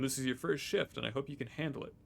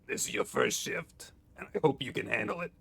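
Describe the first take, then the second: First: It is read in the speaker's ordinary voice. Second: It is read in a put-on character voice. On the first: "I've been reading all these in my normal voice" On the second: "I think we go for voices again"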